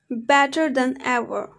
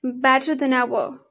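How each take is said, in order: First: Said in the usual way. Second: "than" short, linked into "ever"; weak form of THAN. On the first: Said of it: "For example". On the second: Shown as a demonstration. Teacher showing learners weak forms, "than" reduced and linked. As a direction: run "better than ever" together. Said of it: "But in a weak form".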